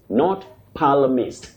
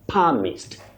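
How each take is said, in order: First: The L is pronounced. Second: The L is silent. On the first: The speaker calls it wrong. "the way we always say" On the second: The speaker calls it right. "The L in that word is not pronounced"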